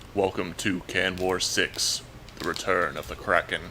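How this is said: It is said in a dramatic movie-trailer voice.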